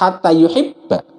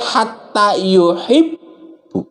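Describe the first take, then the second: First: The last word ends in an 'a' vowel. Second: The last word ends in a 'u' vowel. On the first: The verb is read in the form giving the intended meaning. The speaker calls it right. "Harus hatta yuhibba" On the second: The verb is read in a form that changes the meaning. The speaker calls it wrong. "Nggak boleh hatta yuhibbu"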